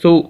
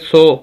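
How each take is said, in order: First: The vowel is a short, pure 'oo' sound. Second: The vowel is an 'oh'-like sound. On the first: The speaker calls it right. "सा पे सु" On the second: The speaker calls it wrong. "अब इसको क्यों पढ़े सा पे सो"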